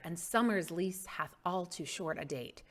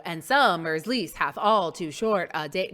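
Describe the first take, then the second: First: And summer's lease hath all too short a date, softer with light stresses; natural iambic emphasis. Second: And summer's lease hath all too short a date, thumping every second syllable loudly; exaggerated iambic stress. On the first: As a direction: keep "SUMmer's LEASE" gently stressed, flowing as speech. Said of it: "they do put the emphasis there". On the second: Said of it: "are they gonna go". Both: Shown as a demonstration.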